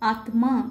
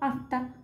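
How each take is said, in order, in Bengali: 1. "m" ধ্বনিটি আলাদাভাবে উচ্চারিত হয়। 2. "m" ধ্বনিটি আলাদাভাবে উচ্চারিত হয় না। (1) "সংস্কৃত ভাষার ক্ষেত্রে সংযুক্ত বর্ণের প্রত্যেকটি বর্ণের উচ্চারণ হবে" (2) "বাংলায় আমরা এটাকে কি বলবো, ... এখানে ময়ের উচ্চারণ বাংলার ক্ষেত্রে আমরা করি না"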